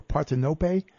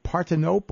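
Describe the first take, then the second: First: Partenope ending in "no-pay"; sounded final E. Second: Partenope ending like English "nope"; silent final E. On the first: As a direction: say Partenope in four syllables, final E as "ay". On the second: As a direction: say Partenope in three syllables, last E silent. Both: Shown as a demonstration. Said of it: "hope I'm pronouncing this".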